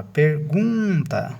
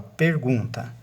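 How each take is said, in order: First: "pergunta" with GUN drawn out; perGUUNta, middle syllable stretched and raised; stress on GUN. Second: Said in the usual way. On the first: Shown as a demonstration. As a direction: lean long on the "gun" in "pergunta". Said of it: "a sílaba tônica é o gum". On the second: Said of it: "a sílaba mais forte".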